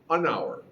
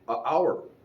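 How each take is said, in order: First: An n sound links the article to the word. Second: The article is a bare vowel with no n. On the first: The speaker calls it right. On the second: The speaker calls it wrong.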